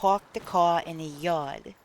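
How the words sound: It is spoken in a New York accent. "If you're from New York"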